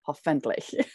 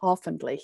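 First: The stress is on the last syllable. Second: The stress is on the first syllable. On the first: The speaker calls it wrong. "instead of" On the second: The speaker calls it right. "putting the accent at the front of the word"

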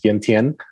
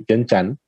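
First: It is said with the international pronunciation. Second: It is said with the local pronunciation. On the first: This is how outsiders say it. "internationally we're known as" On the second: This is how people there say it. "locally we would say"

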